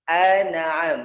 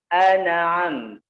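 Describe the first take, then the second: Both takes have the same delivery.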